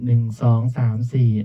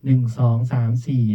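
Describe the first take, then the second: No difference in how they are said.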